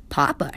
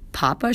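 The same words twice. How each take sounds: First: "Papa" pitched low, without a rise; first mocking take. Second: "Papa" rising as a question; incredulous repeat. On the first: Classmate echoing the boy's word, "Papa" said low, level. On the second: Classmate repeating the boy's word, "Papa" as rising question. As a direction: repeat "Papa" with the pitch climbing in disbelief. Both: A narrator's reading.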